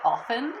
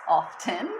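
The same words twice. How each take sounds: First: The T sound is dropped from the middle. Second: The T sound is pronounced in the middle. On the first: "people say often" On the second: "rather than often"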